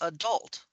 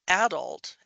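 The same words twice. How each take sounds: First: It is said with an American pronunciation. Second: It is said with an English pronunciation. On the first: It follows common American usage. "common use dictates that you say it the American way" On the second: It reflects the speaker's English family background. "I'm of English extraction. My mom's from England. I say things like adult"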